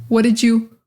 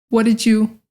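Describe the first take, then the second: No difference in how they are said.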